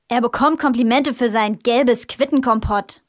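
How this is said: It is said in an angry tone.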